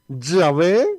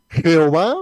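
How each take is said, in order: First: The name starts with a Y sound and ends in -vé. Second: The name starts with a J sound and ends in -ová. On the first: "de otra parte" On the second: "tres maneras de poderlo pronunciar"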